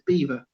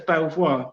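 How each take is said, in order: First: It sounds like the animal name, without an L. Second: It is said as spelt, with an L. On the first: This is how the locals say it. The speaker calls it right. "we pronounce it as Beaver" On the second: This is how the spelling suggests saying it. The speaker calls it wrong. "you'd say it as Belvoir"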